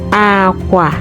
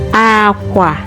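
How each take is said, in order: First: It has the tone pattern of the word 'bed'. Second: The same.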